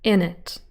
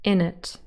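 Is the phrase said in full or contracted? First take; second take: contracted; contracted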